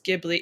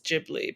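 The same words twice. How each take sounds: First: The name is said with an English pronunciation. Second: The name is said with a Japanese pronunciation. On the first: "maybe in English it is Ghibli" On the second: "In Japanese it's Ghibli"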